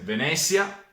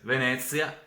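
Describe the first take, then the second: First: The middle consonant is a buzzing z sound. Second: The middle consonant is a lisped th sound. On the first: "sono se z" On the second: "Qua abbiamo invece th"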